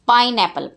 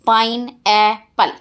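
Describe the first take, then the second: First: Said in the usual way. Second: पाइनएप्पल split slowly into three separate syllables. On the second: Shown as a demonstration. Teacher breaking the word for the class, पाइनएप्पल syllable by syllable. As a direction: say पाइनएप्पल in three beats, pain, e, pal. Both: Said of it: "Break the given words into syllables".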